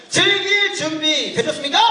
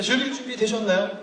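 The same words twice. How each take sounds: First: Higher, shouted hype-man question; rousing crowd call. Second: Said in the usual way. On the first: Real, not acted. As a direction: fire up a sluggish audience. Repeats call after weak audience response. (관객의 호응을 끌어내는 힘찬 외침)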